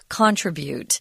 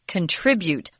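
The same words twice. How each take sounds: First: The stress is on the first syllable. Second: The stress is on the second syllable. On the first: The speaker calls it wrong. "which is incorrect" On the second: The speaker calls it right. "the heavy accents on the second syllable"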